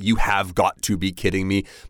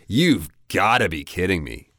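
First: The word have is said in full. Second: The word have is shortened to a v sound. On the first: The speaker calls it wrong. "so you could say you have got to be kidding me" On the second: The speaker calls it right. "it sounds a lot more natural just to say you've got to be kidding me"

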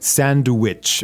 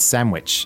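First: The middle is a clear n-d sound. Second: The middle is an m sound. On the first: "the pronunciation of this is sometimes kind of hard" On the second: "we usually say it like sandwich. Like with an M"

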